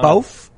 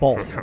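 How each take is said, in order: First: It is said in a Brooklyn accent. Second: It is said in a standard accent.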